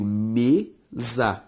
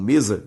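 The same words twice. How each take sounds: First: "mesa" drawn out as me, za; syllable by syllable. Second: Said in the usual way. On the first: Shown as a demonstration. Teacher showing students the split, "mesa" syllable by syllable. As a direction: say "mesa" in two separate, lengthened syllables. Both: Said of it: "veja só comigo".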